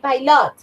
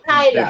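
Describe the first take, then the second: First: The stress is on the second syllable. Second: The stress is on the first syllable. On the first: The speaker calls it wrong. "You don't say pilot" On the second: The speaker calls it right. "the stress goes in the first one"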